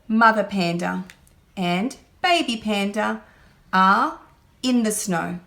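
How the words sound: Words are grouped and read smoothly like talking. The speaker calls it right. "We want children to group the words together that go together"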